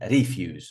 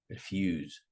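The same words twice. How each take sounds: First: The stress is on the first syllable. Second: The stress is on the second syllable. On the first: The speaker calls it wrong. "not refuse" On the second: The speaker calls it right. "we're going to put them on the second syllable"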